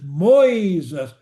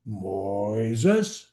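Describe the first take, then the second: First: The name is stretched at a normal pitch. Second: The name is stretched at a low pitch. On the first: "I'm just stretching the word" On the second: "Or go low"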